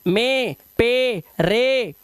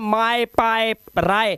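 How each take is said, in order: First: The vowels sound like the 'ay' sound. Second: The vowels glide like the 'eye' sound. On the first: The speaker calls it right. "ए की आवाज निकालो" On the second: The speaker calls it wrong. "माए पाए राय है"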